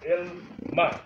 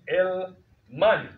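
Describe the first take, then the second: First: The word ends on a plain vowel. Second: The word ends with an added n sound. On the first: This is the form used at the end of a phrase. "so it becomes El Ma instead of saying El Mani" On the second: This is the full form used inside a phrase. "So this would be El Mani"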